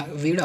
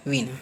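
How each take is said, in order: First: वीणा with curled-tongue ṇ; correct retroflex N. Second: वीणा as "veena" with plain N; wrong dental N. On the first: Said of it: "वीणा होता है". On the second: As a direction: say वीणा with N on the teeth. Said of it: "ना कि वीणा". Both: Shown as a demonstration.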